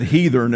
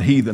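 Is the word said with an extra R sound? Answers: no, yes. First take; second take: yes; no. First: It is said in an Appalachian drawl with added R. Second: It is said in standard speech without added R. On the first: "I said heathen" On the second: "and not heathen"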